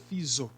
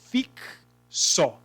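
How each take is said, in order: First: The X is sounded as z. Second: The X is sounded as ks. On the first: The speaker calls it wrong. "Ele tem o som de Z? Não, seria fiso, se fosse Z" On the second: The speaker calls it right. "Ele tem som de K S? Tem"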